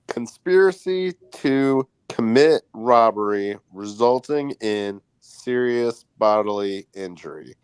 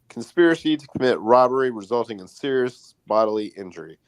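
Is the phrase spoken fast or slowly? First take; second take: slowly; fast. First: The phrase is spoken slowly. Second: The phrase is spoken quickly. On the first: "can you say it slower?" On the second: "It's too fast"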